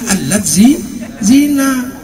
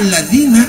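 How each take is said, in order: First: The word is broken into two parts. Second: The word is said smoothly as one unit.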